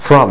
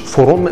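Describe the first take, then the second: First: The vowel is weak and reduced. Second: The vowel is a full long 'oo'. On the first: The speaker calls it right. "تنطق ضعيفه جدا" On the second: The speaker calls it wrong. "مش فروم زي خروج"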